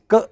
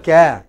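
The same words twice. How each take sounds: First: "ka" as a short, weak kuh; reduced vowel. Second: "ka" with an open, full A as in cat; wrong full vowel. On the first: Teacher shows the right first syllable, reduced vowel. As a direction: clip "ka" down to a quick neutral kuh. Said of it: "it is just ka". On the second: Teacher shows what to avoid, full vowel. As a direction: say "ka" as a strong KAA. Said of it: "It is not ka". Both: Shown as a demonstration.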